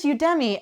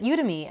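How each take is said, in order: First: Udemy as you-DEM-ee; stressed middle syllable. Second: Udemy as YOU-tuh-mee. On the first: Shown as a demonstration. Podcaster giving own guess at the name, Udemy as you-DEM-ee. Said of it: "I feel like it is Udemy". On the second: Retold or imitated. Quoting someone who records classes, Udemy as YOU-tuh-mee. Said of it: "she called it Udemy".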